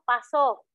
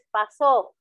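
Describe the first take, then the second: First: The stress is on the first syllable. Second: The stress is on the last syllable. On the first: It means burn. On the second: It means expired.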